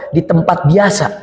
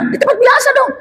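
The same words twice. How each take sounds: First: Said in the usual way. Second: "Di tempat biasa dong" snapped much higher, exasperated; snapping reply. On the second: Retold or imitated. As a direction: bark "biasa dong" at the kid. ("Di tempat biasa dong" dengan nada tinggi membentak) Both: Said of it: "Kenapa harus ngegas gitu".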